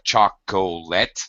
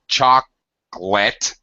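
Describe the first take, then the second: First: The word is said with three syllables. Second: The word is said with two syllables. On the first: The speaker calls it wrong. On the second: The speaker calls it right.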